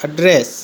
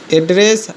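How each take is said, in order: First: address with a falling tune, first vowel weakened; stressed the other way. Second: address with a rising tune; stressed one way. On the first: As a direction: say address as /əɖres/, pitch falling at the end. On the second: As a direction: say address with a strong first syllable, pitch going up. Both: Shown as a demonstration. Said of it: "तो ये homograph हुआ".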